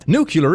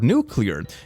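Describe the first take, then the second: First: The word is said as nu-cu-lar. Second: The word is said as nu-clear. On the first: "a common prescribed against pronunciation" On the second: "the word nuclear"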